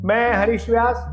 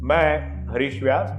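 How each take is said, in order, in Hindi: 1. आवाज़ ऊँची और बहुत पतली है। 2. आवाज़ मध्यम पिच में है। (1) "बिल्कुल पतली आवाज में बोलेंगे" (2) "आप प या म में बोलेंगे"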